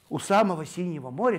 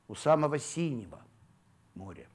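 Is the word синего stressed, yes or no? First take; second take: no; yes. First: The word синего carries no special stress. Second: The word синего carries the main stress.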